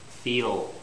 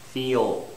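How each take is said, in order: The two takes are said the same way.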